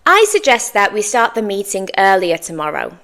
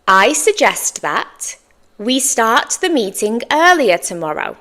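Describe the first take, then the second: First: Fluent, linked in one run without pauses; natural fluency. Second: Slowed "I suggest that", pause, then the rest; careful model. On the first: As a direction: say it at natural conversational pace. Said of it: "say it in my natural fluency now". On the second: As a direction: model it in two chunks for learners. Teacher's slower model after fluent take. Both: Shown as a demonstration.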